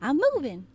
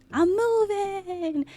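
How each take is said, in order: First: Said in the usual way. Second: "I'm moving" said higher and slow, stretching "moving"; delighted. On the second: Shown as a demonstration. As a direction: show off the new model with glee. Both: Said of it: "everything has a new look, including me".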